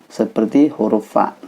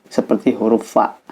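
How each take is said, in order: No difference in how they are said.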